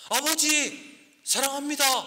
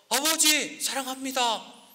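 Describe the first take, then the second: Both takes have the same delivery.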